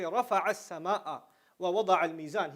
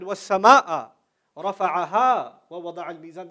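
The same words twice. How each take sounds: First: Said in the usual way. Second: وَالسَّمَاءَ said first, much louder and held, then رَفَعَهَا وَوَضَعَ الْمِيزَانَ run on quickly; fronted sky stressed. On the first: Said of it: "you can say". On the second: Shown as a demonstration. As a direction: land hard on وَالسَّمَاءَ before the rest. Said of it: "But he said".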